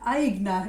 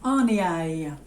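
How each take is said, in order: First: The name is said with a plain English pronunciation. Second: The name is said with a French pronunciation. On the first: "if you just said it normally" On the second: "I've actually Googled this, hun, to say how you pronounce it"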